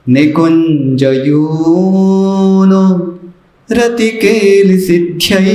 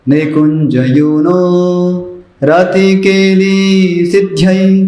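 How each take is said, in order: First: The vowels in 'rati keli' are kept short. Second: The vowels in 'rati keli' are lengthened. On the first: The speaker calls it right. "और एक बार उसको बताता हूँ।" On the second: The speaker calls it wrong. "गलत उच्चारण का आपको उदाहरण देता हूं। ... तो रति केली छोटा था उसको बड़ा बना दिया"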